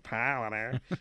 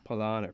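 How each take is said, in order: First: It is said in a nasal voice. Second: It is said in a normal voice.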